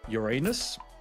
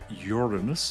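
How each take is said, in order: First: Pronounced in the way that sounds like a joke. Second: Pronounced in the way that avoids the joke.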